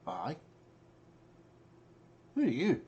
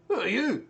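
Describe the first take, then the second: First: God answering in the mind, rising in pitch; puzzled god, going high on the question. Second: High, loud cry of a question; overheard god voice. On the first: Game master as the god answering a caller, high questioning voice. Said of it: "You hear in your mind". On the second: Game master letting Yorick overhear the god's question, high loud call. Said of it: "And you hear". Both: Acted.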